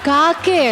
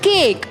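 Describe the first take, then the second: First: It is said with an 'ah' vowel. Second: It is said with an 'ay' vowel. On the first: The speaker calls it wrong. "ಅದು ಕಾಕೆ ಅಲ್ಲ" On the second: The speaker calls it right. "It's ಕೇಕ್"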